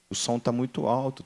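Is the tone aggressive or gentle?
gentle. It is said in a gentle, calm tone.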